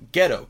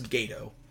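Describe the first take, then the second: First: The name sounds like the word 'ghetto'. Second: The name sounds like 'gah-toe'. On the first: The speaker calls it wrong. "that's the only way these asshats say it" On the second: The speaker calls it right. "His name is Gato"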